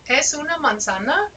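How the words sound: It is said with question intonation. The speaker asks whether it is an apple. "Do you notice the inflection, the accent in my voice?"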